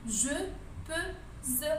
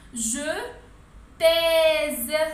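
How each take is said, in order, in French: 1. La voyelle du verbe est un schwa faible. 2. La voyelle du verbe est un e ouvert. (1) "ما قدرتش ننطق الكلمه، الاو هذه غلقت لي النطق" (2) "بالاشاره تاع لاكسون هذه حلت لنا المشكل"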